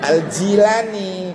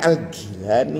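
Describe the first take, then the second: First: The name is said with a J sound. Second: The name is said with a hard G sound. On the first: The speaker calls it right. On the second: The speaker calls it wrong. "Bukan Al-Gilani, bukan"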